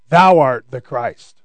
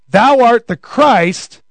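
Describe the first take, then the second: First: Lower, slow, reverent "Thou art the Christ"; solemn confession. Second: Slow, ringing "Thou art the Christ"; proclaiming confession. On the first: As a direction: declare it with awe. Peter's confession voiced. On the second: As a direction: proclaim it boldly. Peter's confession from Matthew. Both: Retold or imitated.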